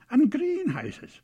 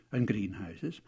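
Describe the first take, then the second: First: GREENHOUSES stretched out and louder; stress on GREENHOUSES. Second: Said in the usual way. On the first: A narrator's reading. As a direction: lean long and hard on "greenhouses". Repeats to show how many.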